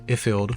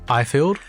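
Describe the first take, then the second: First: The first vowel does not sound like 'eye'. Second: The first vowel sounds like 'eye' in iPhone. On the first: The speaker calls it wrong. "A lot of people say Ifield" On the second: The speaker calls it right. "Pronounced like iPhone"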